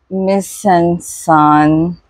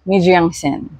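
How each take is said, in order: First: The name is said with a French-style pronunciation. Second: The name is said with a Korean-style pronunciation. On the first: "I still can't pronounce that right" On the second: "I'll pronounce it in Korean"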